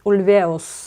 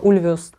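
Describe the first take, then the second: First: The stress is on the second syllable. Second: The stress is not on the second syllable. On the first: The speaker calls it right. "все-таки на второй слог ударения" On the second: The speaker calls it wrong. "[name] называла неправильно. Я говорила [name]"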